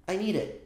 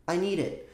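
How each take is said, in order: No difference in how they are said.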